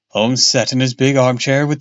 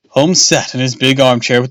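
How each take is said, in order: First: It is read in a character's put-on voice. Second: It is read in the plain narrator voice. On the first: The speaker calls it wrong. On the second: The speaker calls it right.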